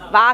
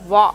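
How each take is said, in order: First: It starts with a v sound, lips unrounded. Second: It starts with a w sound, lips rounded. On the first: The speaker calls it wrong. "వా వా కాదు" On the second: The speaker calls it right. "your lips should round"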